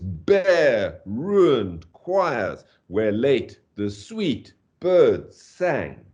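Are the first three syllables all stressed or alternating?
all stressed. The first three and last three syllables are all stressed. The speaker calls it right. "Dum, dum, dum, da dum, da dum, dum, dum"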